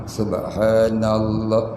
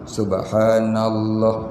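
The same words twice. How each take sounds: First: Each sound is pronounced carefully and fully. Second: Each sound is pronounced carefully and fully.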